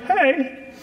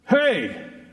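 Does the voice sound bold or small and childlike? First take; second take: childlike; bold. First: It is said in a small, childlike voice. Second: It is said in a bold, commanding voice.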